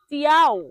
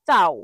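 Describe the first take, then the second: First: An extra 'ee' sound comes before 'ow'. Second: It is one short syllable, 'chow'. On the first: The speaker calls it wrong. "এটা ভুল উচ্চারণ" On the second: The speaker calls it right. "সঠিক উচ্চারণ হলো চাও"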